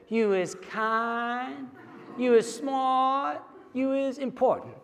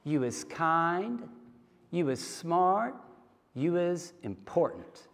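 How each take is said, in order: First: Put-on high, slow little-girl voice; little girl repeating after her nanny, high and slow. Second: Slow, soft and tender, each phrase lifting; nanny's soft slow blessing to the little girl; gentle affirmation. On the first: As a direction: echo it back like a three-year-old. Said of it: "this little girl with her southern accent has to say it along with her". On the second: Retold or imitated. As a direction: look a child in the eyes and reassure her. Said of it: "looks her in the eyes and she says".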